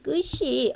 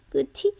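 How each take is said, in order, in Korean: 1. 이 자음은 ch 소리로 발음해요. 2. 이 자음은 그냥 t 소리로 발음해요. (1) "끝이라고 해야지" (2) "끝이가 아니라"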